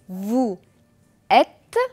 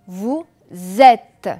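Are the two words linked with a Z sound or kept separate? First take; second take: separate; linked. First: The two words are kept apart without a linking sound. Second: The words are joined by a linking Z sound. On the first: "On a deux mots séparés" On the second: "Je vais faire la liaison"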